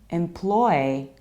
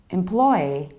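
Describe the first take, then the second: No difference in how they are said.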